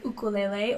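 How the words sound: It is said the Hawaiian way.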